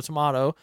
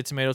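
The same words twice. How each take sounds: First: "tomato" said tuh-MAH-toh; tomato, "ah" vowel. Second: "tomato" said tuh-MAY-toh; tomato, "ay" vowel. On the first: Comparing the two rating words, "tomato" as tuh-MAH-toh. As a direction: use an open "ah" in the middle of "tomato". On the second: Comparing the two rating words, "tomato" as tuh-MAY-toh. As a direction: use a long "ay" in the middle of "tomato". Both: Shown as a demonstration. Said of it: "whether I say tomato, tomato".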